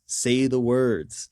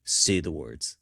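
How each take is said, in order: First: Very slow, drawn-out puppeteer's command; Jensen. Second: Low-pitched mock puppeteer's command; Jensen. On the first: Retold or imitated. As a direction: stretch each word like a mock puppet master insisting. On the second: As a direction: imitate a puppet master prompting, pitched low. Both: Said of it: "Jensen has the mouth puppet and he's like".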